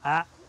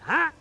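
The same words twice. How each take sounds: First: The voice is pitched lower and firmer. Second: The voice is pitched higher, near screaming. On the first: The command sounds like a firm instruction. The speaker calls it right. "needs to just come down a note or two" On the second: The command sounds like screaming. The speaker calls it wrong. "It's been a bit sort of like"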